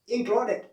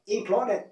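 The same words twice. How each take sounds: First: The ending is said as an 'id' sound. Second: The same.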